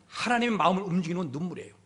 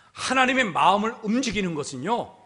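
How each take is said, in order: First: Quicker, slightly softer and falling; quick restatement. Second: Said in the usual way. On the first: Real, not acted. Preacher restating the key point to the congregation, quickly. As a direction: run it together as a quiet restatement.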